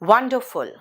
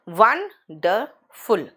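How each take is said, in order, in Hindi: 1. यह शब्द एक साथ, सहजता से बोला गया है। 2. यह शब्द तीन अलग शब्दखंडों में बोला गया है।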